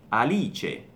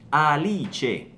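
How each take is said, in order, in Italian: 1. Si dice all'italiana, finisce in '-che'. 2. Si dice all'italiana, finisce in '-che'.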